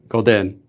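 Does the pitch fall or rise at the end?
falls. The pitch falls at the end. "there's a falling intonation, which was golden"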